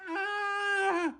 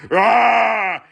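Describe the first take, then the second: First: A much higher, much softer breathy "Ah!"; dainty high gasp; tiny high cry. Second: Short yelled "Ah!" at full voice; brief outright shout; loud yell. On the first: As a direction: squeak "Ah!" up high and small. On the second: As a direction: bark "Ah!" as an outburst. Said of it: "It's not". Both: Shown as a demonstration.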